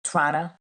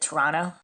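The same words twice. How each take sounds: First: Toronto is said the way Canadians say it. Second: The same.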